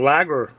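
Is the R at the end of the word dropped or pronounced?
pronounced. The final R is clearly pronounced. The speaker calls it right. "Should be saying lager. The rest of the country pronounces their R's"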